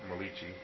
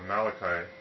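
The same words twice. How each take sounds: First: The name is said with Italian-sounding vowels. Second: The name is said with ordinary English sounds.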